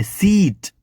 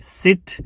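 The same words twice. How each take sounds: First: સીટ with a long ee, as in seat; long vowel. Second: સિટ with a short, quick i; short vowel. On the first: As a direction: stretch the ee in સીટ. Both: Shown as a demonstration. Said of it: "આ બંનેમાં ફરક છે".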